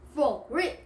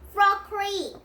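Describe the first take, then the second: First: It is said in a put-on deep voice. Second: It is said in an ordinary voice.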